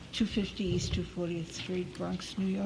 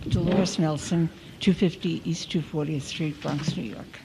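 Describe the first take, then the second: First: Softly given name and address; too quiet. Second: Name and address, projected more clearly; speaking up. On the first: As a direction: state your details softly, barely projecting. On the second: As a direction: speak up for the record. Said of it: "Now I'll be screaming". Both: Real, not acted.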